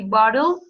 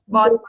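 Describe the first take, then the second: First: The middle t sounds soft, like an r. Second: The middle t is a clear, crisp t. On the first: "In American English, you can say bottle, like with R" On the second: "And in British, bottle, in British bottle, B T"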